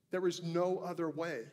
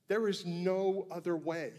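No difference in how they are said.

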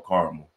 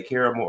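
First: Caramel as CAR-mul; caramel squeezed to CAR-mul; CAR-mul pronunciation. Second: Caramel as CARE-uh-mul; caramel in three syllables, CARE-uh-mul; CARE-uh-mul pronunciation. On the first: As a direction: say caramel in two syllables, starting like car. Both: Shown as a demonstration. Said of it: "do you say caramel or caramel".

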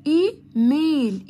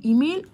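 First: "ايميل" slowly broken as ee, mail; two split syllables. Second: Said in the usual way. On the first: Shown as a demonstration. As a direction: draw out both beats of "ايميل". ("ايميل" ببطء إي ثم ميل) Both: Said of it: "الكلمات اللي على مقطعين".

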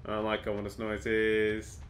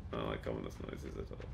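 First: Said in the usual way. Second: Very low, hushed mutter; under the breath. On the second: Real, not acted. Player uneasy about ominous noises, muttering very low. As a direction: mumble it softly to yourself.

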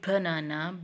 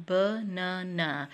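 First: Said in the usual way. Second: "banana" slowly in three separate parts; split into syllables. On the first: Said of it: "when we speak the word". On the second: Shown as a demonstration. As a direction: break "banana" into ba, na, na. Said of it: "split the sound in three different parts". ("banana" तीन हिस्सों में, धीरे-धीरे)

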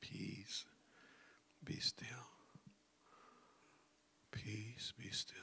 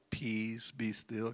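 First: Soft whispered calm; whispered self-talk. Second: Said in the usual way. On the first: Shown as a demonstration. Self-talk to calm your own mind, whisper. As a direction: whisper it to yourself. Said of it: "that self-talk". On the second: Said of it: "the self-talk".

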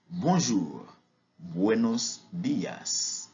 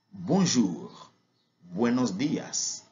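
The two takes are said the same way.

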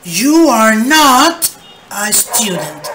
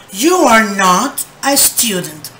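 First: Slow and louder, "not" held out; loud slow model. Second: Said in the usual way. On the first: Shown as a demonstration. Teacher modelling the negative for the class, loud and slow. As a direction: project the negative slowly. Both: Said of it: "Agregamos not".

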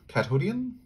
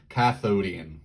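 First: Cathodian asked with a rising tune; unsure rising Cathodian; questioning Cathodian. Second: Cathodian said firmly with a falling tune; confident falling Cathodian; settled Cathodian. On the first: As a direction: try out Cathodian as a question, pitch lifting at the end. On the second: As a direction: land Cathodian with certainty, pitch dropping. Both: Shown as a demonstration. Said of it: "When Cathodian".

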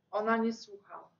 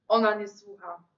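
First: Said in the usual way. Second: Louder, weighted ONA; firmer refrain. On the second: A narrator's reading. Narrator insisting the girl does not listen, louder. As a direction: lean on "Ona" and say it out. Refrain repeated more strongly.

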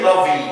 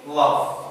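First: Lovey as "LUV-ee"; two-syllable love, ending in ee; final E pronounced. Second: Love ending on the v, "luv"; one-syllable love, E left silent; silent final E. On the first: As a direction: wrongly add an ee to the end of love. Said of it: "We don't say". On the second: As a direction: say love with no vowel after v. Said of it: "The letter E sometimes is silent". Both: Shown as a demonstration.

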